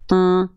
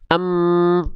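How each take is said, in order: First: The m hum is muffled with the nose closed. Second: The m hums fully through an open nose. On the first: "suaranya hilang" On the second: "lalu buka tutup hidungnya"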